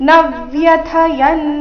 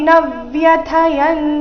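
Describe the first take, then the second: No difference in how they are said.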